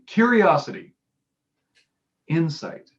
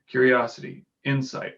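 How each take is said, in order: First: The words are said with pauses and varied pitch. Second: The words are listed flatly with little pitch variation. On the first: The speaker calls it right. "I would have appreciated him going" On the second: The speaker calls it wrong. "with very little emotion and very little variation in his voice"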